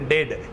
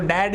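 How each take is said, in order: First: The vowel is closer, as in 'bed'. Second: The vowel is open, as in 'cat'.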